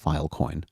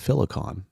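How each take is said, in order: First: The name is said as Filecoin. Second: The name is said as Filicon. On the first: The speaker calls it right. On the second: The speaker calls it wrong.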